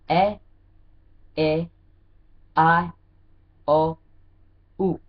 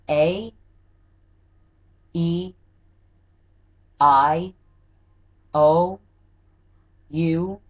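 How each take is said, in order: First: The vowels are said as Hawaiian vowel sounds. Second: The vowels are said as English letter names. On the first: "in Hawaii, the way they say A, E, I, O, and U is" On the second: "for those of you who feel like they could pick up the American English, repeat after me"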